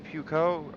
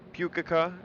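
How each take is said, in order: First: The name is said with two syllables. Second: The name is said with three syllables. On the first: The speaker calls it wrong. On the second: The speaker calls it right.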